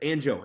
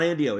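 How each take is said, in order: First: The name is said as Anjo. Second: The name is said as Andio. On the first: The speaker calls it right. "it's Anjo" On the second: The speaker calls it wrong. "it's not Andio"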